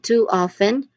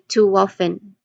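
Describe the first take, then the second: First: The two words are said separately, without linking. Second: The two words are joined by a w sound. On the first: "Instead of saying" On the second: "you say too often. You blend it, you connect it"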